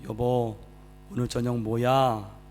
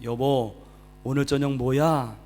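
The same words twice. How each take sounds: First: It is said softly and tenderly. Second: It is called out loudly from a distance.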